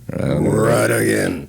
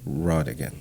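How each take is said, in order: First: The first vowel is reduced, not a full 'o'. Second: The first vowel is a full, stressed 'o'. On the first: The speaker calls it wrong. "it's Ruddigan for me" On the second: The speaker calls it right. "put the stress on the, the, the O"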